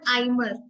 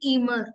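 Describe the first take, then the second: First: The first vowel sounds like 'eye'. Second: The first vowel sounds like 'ee'. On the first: The speaker calls it wrong. "Not आइमर" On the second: The speaker calls it right. "इस वर्ड को बोलूंगी ईमर"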